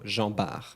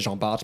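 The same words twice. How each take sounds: First: No final t sound is pronounced. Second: A final t sound is pronounced. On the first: The speaker calls it right. "in French you don't say the T" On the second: The speaker calls it wrong. "In English you say Jean Bart maybe"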